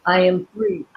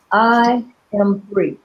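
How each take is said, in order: First: AM leaned on with a rise at the end; stress on AM. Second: I hit first, said slowly and falling; slow falling I am free; stress on I, slow. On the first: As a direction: push the word am and lift the ending. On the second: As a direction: open on I and let it fall, slowly. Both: Shown as a demonstration. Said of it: "So you put different emphasis".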